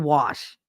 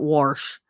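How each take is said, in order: First: The word has no R sound in it. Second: The word has an R sound before the sh. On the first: "I don't put an R in there" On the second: "not wash"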